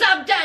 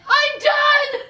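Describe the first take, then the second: First: Said in the usual way. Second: High-pitched mock cry of being fed up; exasperated outburst. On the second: Girlfriend ending the argument, exasperated outburst. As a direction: imitate a dramatic quitting shout. Acted breakup before she cries.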